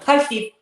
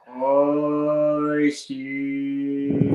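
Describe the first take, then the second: First: It is said at normal speed. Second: It is said slowly and drawn out.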